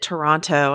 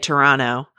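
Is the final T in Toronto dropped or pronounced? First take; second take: pronounced; dropped. First: The second T is clearly pronounced. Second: The second T is dropped. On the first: The speaker calls it wrong. "after I pronounced it Toronto and hit the final T" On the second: The speaker calls it right. "Never hit the final T in Toronto. You have to say Toronto"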